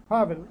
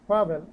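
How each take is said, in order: Both takes have the same delivery.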